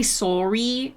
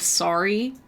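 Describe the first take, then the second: First: "sorry" with a rounded SOH first syllable; Canadian "sorry". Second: "sorry" with an open SAH first syllable; non-Canadian "sorry". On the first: Streamer showing chat their own accent, Canadian "sorry" as SORE-ee. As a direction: say "sorry" as SORE-ee, lips pursed. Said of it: "I say sorry instead of sorry". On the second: Streamer showing chat the other accent, "sorry" as SAH-ree. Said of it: "instead of sorry". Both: Shown as a demonstration.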